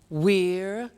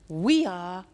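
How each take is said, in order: First: It is said as one contracted syllable. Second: It is said as two full words.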